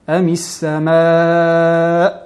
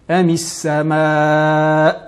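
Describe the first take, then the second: The two takes are said the same way.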